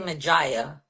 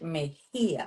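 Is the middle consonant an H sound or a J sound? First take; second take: J sound; H sound. First: The middle consonant is a J sound. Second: The middle consonant is an H sound. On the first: The speaker calls it wrong. "when they don't know it, they say Majaya" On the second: The speaker calls it right. "it's like if it had an H"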